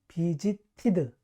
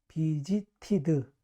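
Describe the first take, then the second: The two takes are said the same way.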